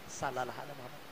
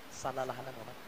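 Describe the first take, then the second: Both takes have the same delivery.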